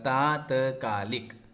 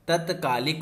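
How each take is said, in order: First: The first vowel is long. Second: The first vowel is short. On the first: The speaker calls it right. "ता में आ की मात्रा" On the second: The speaker calls it wrong. "नहीं होता है"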